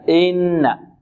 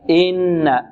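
No difference in how they are said.

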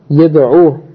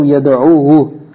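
First: The word ends plainly with no added vowel. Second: The word ends with an extra drawn-out vowel. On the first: The speaker calls it right. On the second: The speaker calls it wrong.

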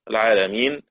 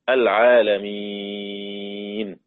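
First: The long vowel before the end is held short. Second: The long vowel before the end is held long.

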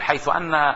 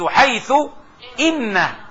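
First: The particle is pronounced anna with an a-vowel. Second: The particle is pronounced inna with an i-vowel. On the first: The speaker calls it wrong. "بيستسهلها بيقول حيث أن الأمر كذا" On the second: The speaker calls it right. "يجب أن نكسر"

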